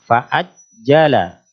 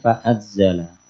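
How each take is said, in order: First: The doubled consonant is a firmly stopped j. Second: The doubled consonant is a buzzing z sound. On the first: The speaker calls it right. "huruf jim salah satu huruf yang kuat sehingga ketika ditasdid dia terhenti" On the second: The speaker calls it wrong. "bukan fa'azzala"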